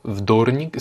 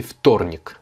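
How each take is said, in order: First: Вторник begun with a buzzing V, like vdornik; wrong voiced V. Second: Вторник begun with a voiceless F, ftornik. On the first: Teacher showing the mistake, вторник with a voiced V. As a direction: voice the first consonant of вторник as V. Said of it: "il se prononce F". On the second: Teacher correcting the mistake, вторник said as ftornik. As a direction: devoice the first consonant of вторник to F. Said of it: "Comme si c'était un F". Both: Shown as a demonstration.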